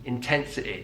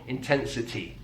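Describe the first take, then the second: First: The final vowel has the Mancunian 'i' sound. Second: The final vowel has a standard, non-Mancunian sound. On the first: "using one of the most typical Mancunian sounds, and that's the I sound on words ending in Y" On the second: "not intensity"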